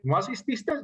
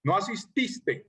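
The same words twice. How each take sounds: First: "no asististe" rising at the end; questioning tune. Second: Slow "No asististe" falling at the end; drawn-out "No asististe" with a falling close; statement tune. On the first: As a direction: ask "no asististe" as a question, pitch climbing. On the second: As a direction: state "No asististe" slowly, letting the pitch drop. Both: Shown as a demonstration. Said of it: "Yo pregunto, ¿por qué no asististe?".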